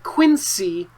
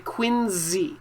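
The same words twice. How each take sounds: First: The middle consonant is an S sound. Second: The middle consonant is a Z sound. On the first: The speaker calls it wrong. "you might say it wrong. This looks like Quincy Market" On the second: The speaker calls it right. "we say Quincy. It sounds like a Z"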